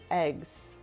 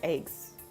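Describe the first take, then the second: First: The vowel is the common short e sound. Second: The vowel is raised, sounding Canadian. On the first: "the common way for me too" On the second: "it's giving very Canadian when I say it like that"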